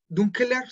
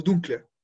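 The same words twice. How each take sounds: First: DUNKELER in three syllables, higher, ending on a rise; con la E intermedia. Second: DUNKLER in two syllables, dun-kler, falling; sin la E intermedia. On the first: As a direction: keep the middle E in "dunkeler", pitched up. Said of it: "le quitamos esa E". ("dunkeler" agudo, en tres sílabas) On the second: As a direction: run K straight into L in "dunkler". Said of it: "dejamos la L y decimos dunkler". ("dunkler" en dos sílabas, tono descendente) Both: Shown as a demonstration.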